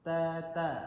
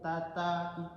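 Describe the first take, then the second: First: The t is soft and blunt, against the teeth. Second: The t is sharp, tongue tip on the gum. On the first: The speaker calls it right. "dia lebih lembut, lebih lembut dan dia lebih tumpul" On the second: The speaker calls it wrong. "itu T dia"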